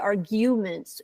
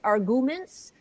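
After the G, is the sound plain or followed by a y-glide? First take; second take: y-glide; plain. First: The G is followed by a y sound, like 'you'. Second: The G is followed directly by a plain u. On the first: "it sounds like it's spelled with a Y after the G" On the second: "what I'm hearing you say is arguments"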